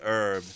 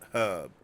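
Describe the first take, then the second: First: It is said the American English way. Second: It is said the British English way. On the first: "American English says herb" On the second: "U K English says herb"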